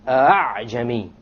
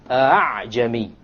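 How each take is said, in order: First: The second hamza is softened, between hamza and alif. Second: The same.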